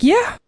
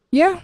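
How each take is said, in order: First: High, bursting mock-excited yeah. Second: Calm. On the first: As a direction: imitate his giddy joy, pitched way up. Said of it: "he just got so excited". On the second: Retold or imitated. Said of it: "I just was just being so calm about it".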